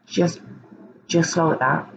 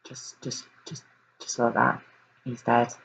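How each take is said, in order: First: Cold, matter-of-fact. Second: Barely voiced, much softer, words falling away; stunned hush. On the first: Retold or imitated. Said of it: "That's how he says it". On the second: Real, not acted. Host reeling at the news of Breck's death, hushed. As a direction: let it drop to a near-whisper in shock.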